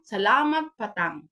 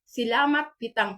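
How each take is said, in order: First: The second word is said as 'patang'. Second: The second word is said as 'pitang'. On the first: This is how native speakers actually say it. "pero ang ilang pagbasa na patang" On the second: This follows the written spelling. "Kung ilang isulat"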